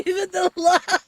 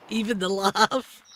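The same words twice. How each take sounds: First: Higher, louder cackling laugh line; mock old-lady cackle through the words; Edith's laugh. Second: Said in the usual way. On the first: Shown as a demonstration.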